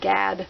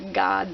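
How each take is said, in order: First: The vowel is a short 'a' as in cat. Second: The vowel is an open 'ah' sound. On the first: This keeps it from sounding like the word God. "I try to pronounce it Gad so people know" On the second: This is the original Hebrew pronunciation. "In Hebrew, it's pronounced God"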